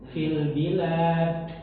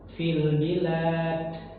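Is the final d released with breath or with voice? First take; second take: breath; breath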